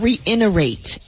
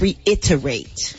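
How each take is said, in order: First: The middle T sound is not clearly pronounced. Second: The middle T sound is clearly pronounced. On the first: The speaker calls it wrong. "It's not" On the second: The speaker calls it right.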